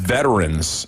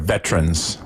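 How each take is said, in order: First: The word has its standard pronunciation. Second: The word has a local nonstandard pronunciation. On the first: The speaker calls it right. "it is veterans" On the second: The speaker calls it wrong. "instead of veterans"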